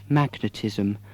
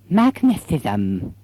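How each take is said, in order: First: The s sound is clear, without a lisp. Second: The s sound is lisped like th.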